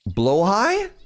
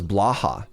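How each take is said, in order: First: The word ends with a 'high' sound. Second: The word ends with a 'ha' sound. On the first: The speaker calls it right. "I'm going to pronounce it right" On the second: The speaker calls it wrong. "I thought it was blaha"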